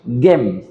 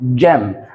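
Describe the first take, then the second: First: It begins with a hard g sound. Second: It begins with a soft j sound. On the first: The speaker calls it wrong. "ما اسمهاش جيم" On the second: The speaker calls it right. "جيم عشان الجي بعدها واي"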